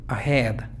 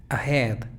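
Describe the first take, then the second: Both takes have the same delivery.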